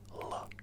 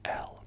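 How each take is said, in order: First: The letter is said as a bare l sound. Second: The letter is said as 'el', the English name.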